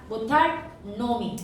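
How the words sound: A short break separates the two words. The speaker calls it right. "이렇게 발음하라는 이야기입니다"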